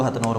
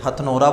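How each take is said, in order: First: "हथनौर" ending on a bare r; variant place name. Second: "हथनोरा" ending in a long -aa; variant place name. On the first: Teacher gives the name some people use, "हथनौर" without final -aa. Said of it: "कुछ लोग हथनौर बोलते हैं". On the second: Teacher gives students one name variant, "हथनोरा" ending in -ra. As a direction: say "हथनोरा" with the final -ra sounded. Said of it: "बोलते हैं". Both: Shown as a demonstration.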